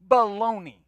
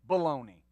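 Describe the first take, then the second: First: It is said with much more energy. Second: It is said with ordinary energy.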